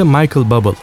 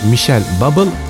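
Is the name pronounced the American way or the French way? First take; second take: American; French. First: The name is pronounced the American way. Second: The name is pronounced the French way. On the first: This is how Americans say it. "Amerikalıların dediğine göre de" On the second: This is how the French say it. "Fransızların dediğine göre"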